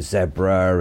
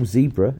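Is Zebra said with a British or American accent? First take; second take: British; American. First: Zebra is said with a British accent. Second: Zebra is said with an American accent.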